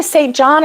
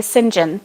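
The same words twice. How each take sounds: First: "Saint John" with a full "Saint", not "Sinjin"; "Saint John" pronounced as spelt, SAYNT JON; Saint John as two words. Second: "St. John" run together as SIN-jin; "St. John" squeezed into two syllables, SIN-jun; Sinjin. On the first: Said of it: "Do you say Saint John or". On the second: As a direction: say "St. John" as one word, Sinjin. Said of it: "or do you say St. John". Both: Shown as a demonstration.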